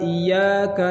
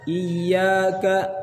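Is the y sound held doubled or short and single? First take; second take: single; doubled. First: The y sound is short and single. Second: The y sound is doubled and pressed. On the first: Only to the sun. The speaker calls it wrong. "jangan sampai" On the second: Only to you, O God. The speaker calls it right. "ya ditasdid memang ada penekanan dari tasdid"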